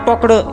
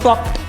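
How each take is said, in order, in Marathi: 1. शेवट 'ed' या अतिरिक्त अक्षराने उच्चारला जातो. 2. शेवट लहान t आवाजाने उच्चारला जातो. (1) "हे वाकडं किंवा टोकडं हे असं उच्चार करायचा नसतो" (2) "याचा उच्चार मित्रांनो असा करायचा असतो"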